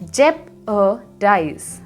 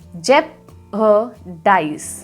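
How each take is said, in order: No difference in how they are said.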